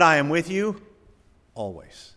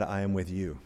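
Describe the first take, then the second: First: The stress is on "always". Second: The stress is on "with".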